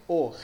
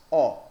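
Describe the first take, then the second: First: O kept closed and rounded, as in Spanish; a tight closed "O". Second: O opened wide, the version to avoid; drawn-out open "O". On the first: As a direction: say O with a close, narrow vowel. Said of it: "siempre se pronuncia cerrada". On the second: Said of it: "jamás O". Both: Shown as a demonstration.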